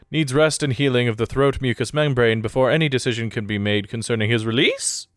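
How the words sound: The voice rises at the end, like a question.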